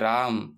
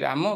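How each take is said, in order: First: The word ends on the consonant m. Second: The word ends with a short vowel sound. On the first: This is how English speakers say it. "ଇଂରେଜୀ ବାଲା ତାଙ୍କ ଭଏସରେ କହିବେ" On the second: This is how Odia speakers say it. "ଆମେ ଓଡ଼ିଆରେ କହୁଛନ୍ତି"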